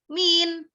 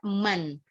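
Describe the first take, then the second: First: The word is said with an 'i' vowel. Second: The word is said with an 'a' vowel. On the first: This is the Kuwaiti dialect form. "kalau di Kuwait kita bilang siapa itu min" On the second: This is the standard Arabic form. "ini bukan min melainkan man"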